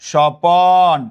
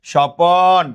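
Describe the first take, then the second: The two takes are said the same way.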